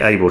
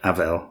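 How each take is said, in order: First: The middle consonant is a B sound. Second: The middle consonant is a V sound. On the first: The speaker calls it wrong. "there's a B in there" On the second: The speaker calls it right. "it should be pronounced as a V"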